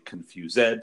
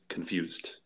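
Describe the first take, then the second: First: The ending is said as an extra syllable. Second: The ending is said as a plain D sound. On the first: The speaker calls it wrong. "We don't say confused" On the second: The speaker calls it right. "We say just confused"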